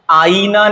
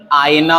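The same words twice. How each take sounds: First: आईना said higher as "aa-ee-naa"; long ई. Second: आईना said as "aay-naa"; short glide. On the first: Teacher recapping the mistake, आईना with long ee. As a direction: stretch the ee in आईना. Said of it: "आईना नहीं". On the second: Teacher recapping, आईना as "aay-naa". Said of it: "आईना होता है". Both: Shown as a demonstration.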